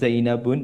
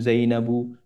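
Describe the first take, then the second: First: The name ends with an added n sound. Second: The name ends on a plain u vowel. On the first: The speaker calls it wrong. "bukan Zainabun" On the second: The speaker calls it right. "namun Zainabu"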